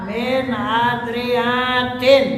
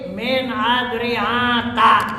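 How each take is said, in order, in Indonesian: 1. Kata ini berakhir dengan i pendek lalu n. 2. Kata ini berakhir dengan a pendek, tanpa n. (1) "i'rab jama' muannats salim, yakni dengan tanwin" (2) "adalah sebagai isim ghair munsharif"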